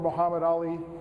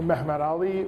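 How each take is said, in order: First: The name is said the Arabic way. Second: The name is said the Turkish way. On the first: "or a Arabic pronunciation" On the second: "a Turkish"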